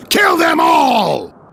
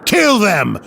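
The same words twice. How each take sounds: First: High, slow, full-throated yell to attack; furious battle shout. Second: Angry order. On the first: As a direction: roar the order at the warriors. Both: Acted. Battle order against Volstagg's men.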